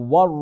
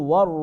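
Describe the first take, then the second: Both takes have the same delivery.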